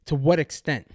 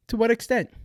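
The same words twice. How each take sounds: First: Said in the usual way. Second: "what" pushed higher in a pointed question; emphatic repeat. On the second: Shown as a demonstration. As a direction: repeat "To what extent?" with rising force on "what".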